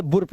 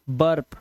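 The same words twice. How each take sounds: First: "बुर्प" with "oo" before the R; spelling-style U in "बुर्प"; wrong U sound. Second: Said in the usual way. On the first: Shown as a demonstration. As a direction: misread burp as "बुर्प", boorp. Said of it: "बुर्प नहीं पढ़ना है". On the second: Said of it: "आ से पढ़ना है".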